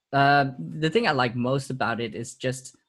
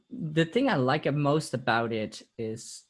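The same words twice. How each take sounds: First: Said in the usual way. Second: Slight accidental Italian accent; words slipping into an Italian lilt. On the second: Real, not acted. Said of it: "did I go with a weird Italian accent just now?".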